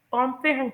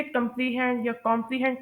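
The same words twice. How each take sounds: First: कॉम्प्रिहेंड as "kom-pre-HEND"; short "pre", stress on the हेंड of कॉम्प्रिहेंड; corrected pronunciation. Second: कॉम्प्रिहेंड first as "kum-pree-hend", then "kom-pree-hend"; common mispronunciations. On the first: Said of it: "लेकिन इसे कॉम्प्रिहेंड pronounce करते हैं". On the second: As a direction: show two wrong versions of कॉम्प्रिहेंड, with "pree". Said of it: "कुछ लोग इसे कॉम्प्रिहेंड या कॉम्प्रिहेंड pronounce करते हैं". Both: Shown as a demonstration.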